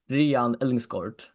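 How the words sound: The name is pronounced the Danish way. "Adam pronounces it in Danish"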